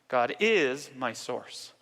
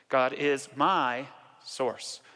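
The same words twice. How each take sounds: First: The word is is stressed. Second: The word my is stressed.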